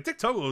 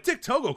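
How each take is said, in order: First: "Dick Togo" as a firm, falling exclamation; exclamation tune. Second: "Dick Togo" pitched very high as a question; questioning tune. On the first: Reading out tweets, "Dick Togo" as a falling exclamation. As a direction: punch out "Dick Togo" without questioning. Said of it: "is an exclamation point". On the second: Reading out tweets, "Dick Togo" as a puzzled question. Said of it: "question mark". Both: Retold or imitated.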